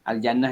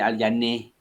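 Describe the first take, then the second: First: The final vowel is an open a sound. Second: The final vowel is bent toward an i sound.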